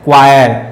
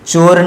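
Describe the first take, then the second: First: It starts with a 'kw' sound. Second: It starts with a 'ch' sound. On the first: The speaker calls it right. "ये क्वायर है" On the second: The speaker calls it wrong. "चोर नहीं"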